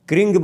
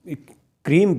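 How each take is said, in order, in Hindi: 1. यह शब्द ng की ध्वनि से खत्म होता है। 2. यह शब्द m की ध्वनि से खत्म होता है। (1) "क्रिंग बोलेंगे और गाकार कहें तो ये तांत्रिक पद्धति में आता है" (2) "माकार से उच्चारण करेंगे तो यह सामान्य विधि में आता है"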